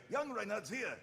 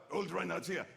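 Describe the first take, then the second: First: Pitched-up younger knight; higher, in the top of the voice; young Reinhardt. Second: Put-on old Reinhardt. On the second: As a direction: voice the old knight, lightly put on. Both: Shown as a demonstration. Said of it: "You pitch it up in the top of the voice".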